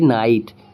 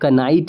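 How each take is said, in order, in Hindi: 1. शब्द सीधे n की आवाज़ से शुरू होता है। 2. n से पहले k की आवाज़ सुनाई देती है। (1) "तो हम इसे पढ़ेंगे नाइट" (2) "तो हम इसको कनाइट नहीं पढ़ेंगे"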